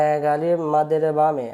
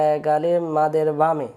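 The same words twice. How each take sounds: The two takes are said the same way.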